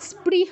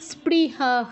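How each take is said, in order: First: The word stops short with no final h. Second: The word ends with an extra echoed h. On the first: The speaker calls it wrong. "স্পৃহ বলে থেমে গেলে হবে না" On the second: The speaker calls it right. "বিসর্গর জায়গায় আমাদের আরেকটা হ উচ্চারণ করতে হবে"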